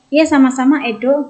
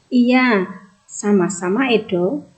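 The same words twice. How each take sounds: First: It runs on with no pause after iya. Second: There is a short pause after iya. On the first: The speaker calls it wrong. "bacanya bukan gini" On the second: The speaker calls it right. "ada tanda koma, istirahat sebentar"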